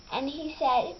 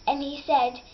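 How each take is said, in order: Both takes have the same delivery.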